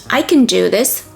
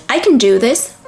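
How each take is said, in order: Both takes have the same delivery.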